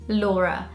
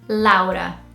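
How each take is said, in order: First: The name is said with a British English pronunciation. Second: The name is said with a Brazilian Portuguese pronunciation. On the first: "British people would say it Laura" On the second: "Brazilians would say it Laura"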